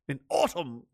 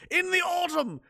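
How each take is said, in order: First: Said in the usual way. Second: Mocking the British. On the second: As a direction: jeer at the British word choice. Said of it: "We call it the fall".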